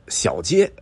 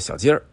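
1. 最后一个音节没有儿化。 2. 最后一个音节带儿化。

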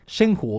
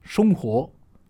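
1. 最初の音節は'shen'のように聞こえます。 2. 最初の音節は'shong'のように聞こえます。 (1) "言い訳ができてないとシェンティ、シェンホーみたいな風になっちゃう" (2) "これを正しく発音すると"

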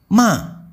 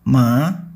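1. Nadanya turun tajam dari tinggi. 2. Nadanya naik perlahan ke atas. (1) "ton 4 bunyinya seperti sedang marah atau membentak" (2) "Ton 2 bunyinya naik seperti sedang bertanya"

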